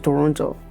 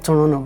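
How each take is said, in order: First: The name is said in the standard way. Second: The name is said the way locals say it.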